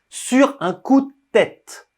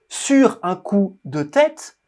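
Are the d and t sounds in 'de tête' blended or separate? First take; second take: blended; separate. First: The d and t sounds blend together. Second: The d and t sounds are said separately. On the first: "C'est comme si on mixait, on mélangeait le D et le T" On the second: "ils ne disent pas"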